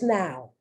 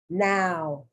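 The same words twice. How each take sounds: First: The vowel is said naturally, not drawn out. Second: The vowel is drawn out and exaggerated. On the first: "It's not so exaggerated" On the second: "I'm exaggerating it to make the point"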